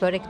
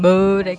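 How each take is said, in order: First: The word is said without a soft g sound. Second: A soft g sound is inserted into the word. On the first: The speaker calls it right. "Artık börek diyorum" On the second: The speaker calls it wrong. "Oraya yumuşak G'yi konduruyorlar"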